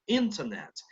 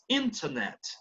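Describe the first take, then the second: First: The T after the N is clearly sounded. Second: The T after the N is clearly sounded.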